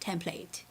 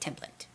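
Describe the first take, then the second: First: It is said in a British accent. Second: It is said in an American accent. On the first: "British English is template" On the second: "I say template in American English"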